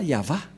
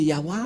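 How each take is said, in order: First: The middle consonant is a V sound. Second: The middle consonant is a W sound. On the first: The speaker calls it right. "c'est bien Yahva la, la prononciation" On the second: The speaker calls it wrong. "certains aussi disent que, que c'est Yahwa"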